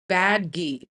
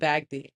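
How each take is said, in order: First: The d sound comes before the g sound. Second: The g sound comes before the d sound. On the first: The speaker calls it right. "There we go. I'm saying I was saying bagdi. I was saying it backwards" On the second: The speaker calls it wrong. "I'm not saying it right"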